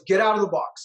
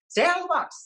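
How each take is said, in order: First: It is said in a deep voice. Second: It is said in a high-pitched voice.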